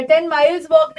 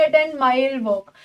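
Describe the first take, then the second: First: Said in the usual way. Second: A ten mile walk, each word slow and even, ending in a fall; slow correct example. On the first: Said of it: "नहीं". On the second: Shown as a demonstration. Teacher slowly models a ten mile walk for her students.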